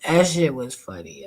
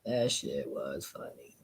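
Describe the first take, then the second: First: Said in the usual way. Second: Low, soft, slow echo; quiet repeat. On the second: Real, not acted. Repeating to himself, quiet and low. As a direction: drop it down to almost nothing. Repeats it much lower and softer.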